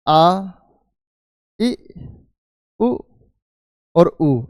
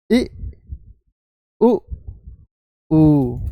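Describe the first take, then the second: First: आ इ उ ऊ held long or clipped short by length; vowel length demo. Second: इ short, उ then ऊ drawn out longer; vowel length demo. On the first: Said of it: "किसी को बोलने में कम समय लगता है". (आ, इ, उ को छोटा बड़ा खींचकर बोलना) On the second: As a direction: contrast short इ with long ऊ. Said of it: "एक को बोलने में ज़्यादा समय लगता है". (ह्रस्व और दीर्घ स्वर की लंबाई दिखाना) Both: Shown as a demonstration.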